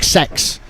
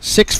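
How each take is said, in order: First: A New Zealand accent, the vowel sounding like 'sex'. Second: An Australian accent, with a clear 'i' vowel. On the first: "in New Zealand it's it, it it's more uh, there's an accent on it like sex" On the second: "six for Australia"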